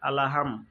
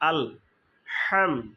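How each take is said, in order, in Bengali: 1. একটি অতিরিক্ত স্বরধ্বনি l আর h-কে আলাদা করে। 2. l কোনো স্বরধ্বনি ছাড়াই কণ্ঠনালী থেকে আসা h-এর সাথে যুক্ত হয়। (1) "এখানে আলাহামটা সঠিক নয়" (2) "বড় হা, কণ্ঠনালী থেকে চেপে"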